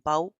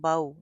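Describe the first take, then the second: First: The syllable is cut off with a jerk. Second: The syllable is said short and gently. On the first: The speaker calls it wrong. "झटका भी नहीं देना" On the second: The speaker calls it right. "नरमी से"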